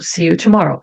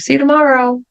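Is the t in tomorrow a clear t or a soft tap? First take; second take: clear t; soft tap. First: The t sounds like a clear t. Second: The t sounds like a soft r-like tap. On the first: "é claro que eu também posso falar see you tomorrow" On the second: "eu posso fazer essa emenda aqui com esse som. R"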